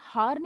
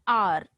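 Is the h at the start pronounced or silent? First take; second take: pronounced; silent. First: The word begins with an h sound. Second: The word begins with a vowel, h silent. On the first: The speaker calls it wrong. "हमने हार नहीं पढ़ेंगे" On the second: The speaker calls it right. "हम इसे pronounce करेंगे आर"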